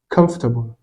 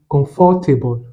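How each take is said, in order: First: The word is said with three syllables. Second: The word is said with four syllables. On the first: The speaker calls it right. "avec seulement trois syllabes" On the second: The speaker calls it wrong. "avec quatre syllabes"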